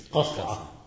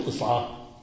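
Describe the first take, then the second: First: قصعة said with an a after ق, qas'a; correct-vowel demo. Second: قصعة said with an i after ق, qis'a; wrong-vowel demo. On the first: Teacher answers his own quiz with qas'a for قصعة. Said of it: "قل إيش؟". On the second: Teacher warns students off a wrong vowel, qis'a in قصعة. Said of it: "لا تقل قصعة". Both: Shown as a demonstration.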